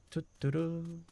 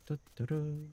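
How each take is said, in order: Both takes have the same delivery.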